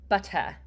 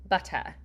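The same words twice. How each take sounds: The two takes are said the same way.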